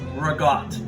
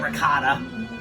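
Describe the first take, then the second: First: It is said with a New York area pronunciation. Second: It is said with a standard Southern pronunciation. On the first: This is how people in the New York tri-state area say it. "we say ragout" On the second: This is how people outside the tri-state area say it. "For those of you in the South, you may know it as ricotta"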